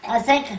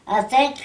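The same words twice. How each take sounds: The two takes are said the same way.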